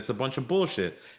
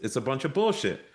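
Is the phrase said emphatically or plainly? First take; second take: plainly; emphatically. First: It is said in a plain, ordinary way. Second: It is said with strong, forceful emphasis.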